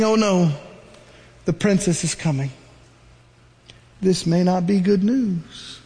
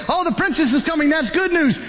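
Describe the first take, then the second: First: Worried Miriam. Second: Higher, brighter, pleased exclamation; hopeful relief. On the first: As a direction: dread creeping in as she watches. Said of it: "Miriam is saying". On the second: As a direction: cheer as if rescue has come. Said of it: "Some of you say". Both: Acted.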